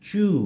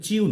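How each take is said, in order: First: The vowel follows with no glide. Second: A 'y' glide comes before the vowel. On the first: The speaker calls it right. "হবে চু" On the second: The speaker calls it wrong. "এটা কিন্তু চিউ নয়"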